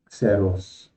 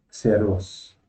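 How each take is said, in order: Both takes have the same delivery.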